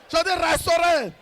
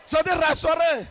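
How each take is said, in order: Both takes have the same delivery.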